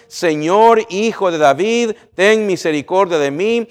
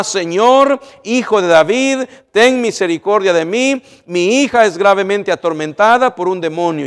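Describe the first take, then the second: First: Slightly raised reading of the plea; the preacher first reads the woman's cry from the verse, a touch raised; plain read-out plea. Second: Loud, raised plea for mercy; crying out. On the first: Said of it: "una mujer cananea ... clamaba diciéndole". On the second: Mother shouts to Jesus for her tormented daughter, loud pleading cry. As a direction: beg for mercy at the top of your voice. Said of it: "gritando para cautivar la atención de Cristo". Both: Acted.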